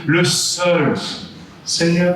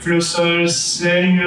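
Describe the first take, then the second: First: Sung high, with "le seul" stressed and a pause before "seigneur"; "Le seul" held and stressed, then a break, then "seigneur". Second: Sung high, with the weight landing on "seigneur"; "Le seul seigneur" sung, leaning on "seigneur" the usual way; stress on seigneur. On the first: Singer shows the Jesuit version the way she had to sing it, stressed le seul. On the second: Singer shows how the phrase was normally stressed, sung stress on seigneur. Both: Shown as a demonstration. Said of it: "The stress is on le seul".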